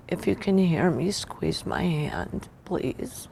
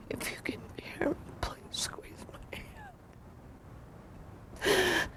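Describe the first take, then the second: First: Said in the usual way. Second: Soft pleading whisper; whispered plea. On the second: Retold or imitated. Wife whispering to her dying husband, pleading whisper.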